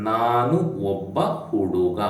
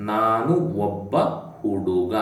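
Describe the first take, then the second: First: Said in the usual way. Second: ನಾನು ಒಬ್ಬ, a pause, then ಹುಡುಗ; split into two chunks. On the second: Shown as a demonstration. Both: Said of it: "the sentence would be".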